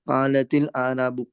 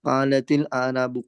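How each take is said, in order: First: The t links to the next word with an i. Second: The t links to the next word with an i.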